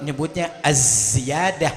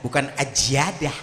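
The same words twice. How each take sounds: First: Az-Ziyadah said slowly with a clear z sound; careful Arabic z in Az-Ziyadah; correct Az-Ziyadah. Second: Ajiadah with a j in place of the z; mock the sloppy Ajiadah, z turned to j; lazy j sound in Ajiadah; wrong pronunciation. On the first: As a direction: stretch out Az-Ziyadah with a crisp z. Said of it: "kalau orang yang ngerti huruf". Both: Shown as a demonstration.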